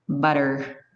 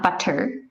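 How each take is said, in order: First: The middle consonant is a soft, D-like tap. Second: The middle consonant is a clear, crisp T. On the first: The speaker calls it right. "In Canadian, it's butter. It's a little, almost like D sound" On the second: The speaker calls it wrong. "it's not butter"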